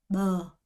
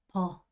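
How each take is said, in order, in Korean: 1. b는 베트남식 b처럼 발음돼요. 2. b는 한국식 b처럼 발음돼요. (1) "베트남 사람들은 뭐" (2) "한국 사람들은 버"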